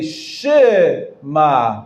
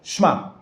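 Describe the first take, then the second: First: A short vowel is sounded between sh and m. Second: No vowel is sounded between sh and m. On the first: The speaker calls it right. "this is a Shavana. Don't forget to say Shema" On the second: The speaker calls it wrong. "and not Shma"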